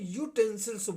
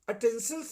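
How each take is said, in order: First: The word begins with a 'yoo' sound. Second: The word begins with a plain 'uh' vowel. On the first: The speaker calls it right. "यूटेंसिल्स बोलते हैं। तो या बोलते हैं" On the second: The speaker calls it wrong. "अटेंसिल्स नहीं बोलते"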